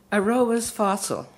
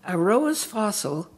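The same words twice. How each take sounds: The two takes are said the same way.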